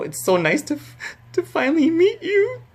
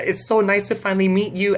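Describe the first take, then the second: First: Imitated tearful voice climbing into a squeak; acting choked up, pitch shooting up; voice breaking. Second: High, controlled retold greeting; held-together fan hello; calm greeting. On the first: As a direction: start high and crack upward mid-sentence. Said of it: "my voice started breaking". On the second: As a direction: keep it composed but pitched high. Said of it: "I was really calm".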